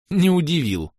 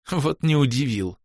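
First: Said in the usual way. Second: Медленно, давясь смехом; сказать сквозь булькающий смешок. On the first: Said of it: "давясь смехом". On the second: Acted. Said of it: "давясь смехом, пробулькала чёрная баронесса". (булькая от смеха)

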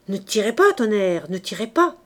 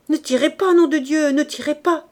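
First: Loud, urgent plea at usual pitch; alarmed protest, not yet at full pitch; mounting alarm. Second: Loud, high-pitched panicked plea; terrified shouting. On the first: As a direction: beg gunmen to hold fire, panic starting. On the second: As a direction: scream at gunmen to hold fire. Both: A narrator's reading. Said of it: "Sa voix montait, rauque, épouvantée".

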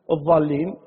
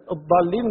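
First: Kuwaiti-style "الضالين", ض turned into ظ; Kuwaiti ẓā' for ḍād. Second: "الضالين" opened on a heavy d sound; ḍād of الضالين. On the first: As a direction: say الضالين with an emphatic "dh". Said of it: "الضالين نقولها". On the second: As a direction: say الضالين with a stopped emphatic "d". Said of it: "كويتيين مثلًا، الضالين نقولها". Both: Shown as a demonstration.

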